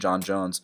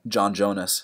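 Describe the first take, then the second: First: It is said in the speaker's plain accent. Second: It is said in a Brazilian accent.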